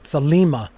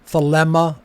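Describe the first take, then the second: First: The second vowel is an ee sound. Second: The second vowel is a short eh sound. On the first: "it is not an iota" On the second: "It is not another epsilon"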